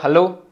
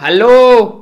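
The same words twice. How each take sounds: First: It is said quietly and softly. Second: It is shouted loudly.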